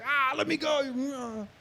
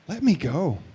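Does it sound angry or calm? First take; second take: angry; calm. First: It sounds desperate and angry. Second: It sounds quiet and calm.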